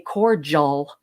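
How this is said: It is pronounced the American way. "Americans say cordial"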